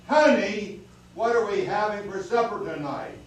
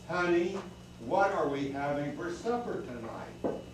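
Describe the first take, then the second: First: It is said very loudly. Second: It is said at a normal volume.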